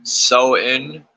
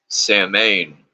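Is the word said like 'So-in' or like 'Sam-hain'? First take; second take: So-in; Sam-hain. First: It is said as two soft syllables, 'so-in'. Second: It is said as spelled, 'sam-hain'. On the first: The speaker calls it right. "pronounced So-in" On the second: The speaker calls it wrong. "the vast majority of witches mispronounce it"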